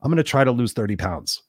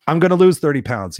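First: Said in the usual way. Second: Louder, higher, forceful declaration; punchy, emphatic resolve; firm commitment. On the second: Shown as a demonstration. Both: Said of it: "See how that feels the next time".

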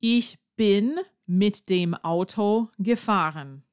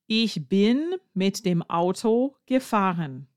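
First: "Ich bin mit dem Auto gefahren" said slowly and clearly, word by word; teacher models the sentence slowly for learners. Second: Said in the usual way. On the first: Shown as a demonstration. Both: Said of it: "you have to say".

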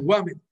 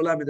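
First: "ומד", the letter name lamed opening on a W sound; L turned into W. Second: Said in the usual way. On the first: Shown as a demonstration. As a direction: say "ומד" with W replacing the first L. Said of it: "היה לו ומד". ("ומד" עם וו במקום למד בתחילת המילה) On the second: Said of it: "לא היה לו למד".

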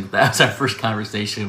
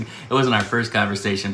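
First: Our leaned on; stress on our. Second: Wasn't leaned on; stress on wasn't. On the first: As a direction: hit the word our. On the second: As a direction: hit the word wasn't. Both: Shown as a demonstration.

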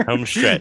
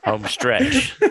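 First: Said in the usual way. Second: Much higher, giggled through; laughing "home stretch" with a rising end. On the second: Real, not acted. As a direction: squeak it out mid-laugh. Laughing, repeats phrase.

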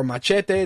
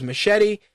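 First: Machete said Spanish-style as mah-CHEH-tay; Spanish-style pronunciation. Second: Machete said English-style as muh-SHET-ee; English pronunciation. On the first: Host offering the other accent's version, Machete as mah-CHEH-tay. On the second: Host naming Danny Trejo's role, Machete as muh-SHET-ee. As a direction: say Machete with SH and an "ee" ending. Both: Shown as a demonstration. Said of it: "accent dependent".

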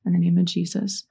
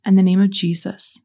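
First: Prayer response. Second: Clear, firm lead line; leading a prayer. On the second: Leading listeners in renouncing spirits, firm prayer lead. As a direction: give the line for others to echo. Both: Shown as a demonstration. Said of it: "repeat after me".

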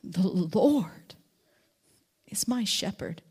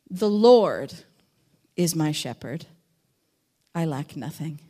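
First: Whispered verse. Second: "The Lord" weighted louder, "is my shepherd" lower and drawn; stress on Lord. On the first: Preacher whispers the verse in wonder at God's care. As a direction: whisper it in awe. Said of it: "You could say it". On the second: Preacher shows the verse with weight on "Lord". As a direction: lean on "Lord", then let the rest drop. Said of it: "say this verse in lots of different ways". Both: Shown as a demonstration.

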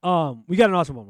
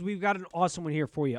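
First: Louder, fresh, no yawn; energetic restart. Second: Words stretched by a yawn. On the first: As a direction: shake it off and say it loud and bright. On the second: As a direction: talk through the tail of a yawn. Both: Real, not acted. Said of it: "I just yawned".

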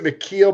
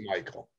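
First: Mikhail said as mih-KEEL; pronounced as spelled. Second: Michael said as MY-kul; American pronunciation. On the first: Co-host explaining the name's spelling, Mikhail pronounced mih-KEEL. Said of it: "he spells it Mikhail". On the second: Co-host explaining how the chef says his name, Michael pronounced MY-kul. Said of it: "I think he pronounced it Michael". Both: Shown as a demonstration.

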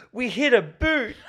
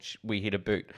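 First: High, slow, giggly ditzy voice; mock dumb girl quote. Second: Said in the usual way. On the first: Friend retelling a Scary Movie scene, high giggling ditzy voice. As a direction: squeal it out like a clueless girl holding a boot. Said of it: "She goes". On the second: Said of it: "I yelled".

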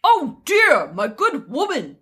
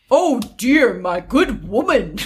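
First: Swooping, hammed-up gentleman; man voice. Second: Put-on man's voice, slipping Irish; hammed-up manly voice with an accidental lilt. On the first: Prince addressing the widow, put-on man voice. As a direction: put on a manly prince with big pitch swings. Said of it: "I'm just trying to be a man". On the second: Prince addressing the widow, attempted man voice. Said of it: "I'm gonna do my man voice".

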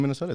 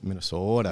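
First: Said in the usual way. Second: "Minnesota" with a long, rounded local O; Minnesota accent. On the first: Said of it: "if you wanna say it like". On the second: Shown as a demonstration. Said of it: "like from people from Minnesota".

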